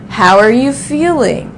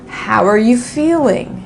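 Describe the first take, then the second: First: The word 'are' is reduced and linked. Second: The word 'are' is reduced and linked.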